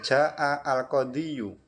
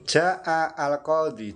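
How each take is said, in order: First: The last word ends in an added 'yu' sound. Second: The last word ends in a plain 'i' sound. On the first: The case vowel is spoken out fully. The speaker calls it wrong. "lidahnya itu kesulitan" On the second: The case vowel is only implied. The speaker calls it right. "dibaca rafa dengan dhammah muqaddarah"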